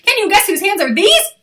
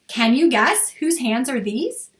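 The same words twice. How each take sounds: First: It is said very fast. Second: It is said at a normal pace.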